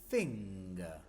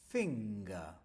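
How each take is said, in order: Both takes have the same delivery.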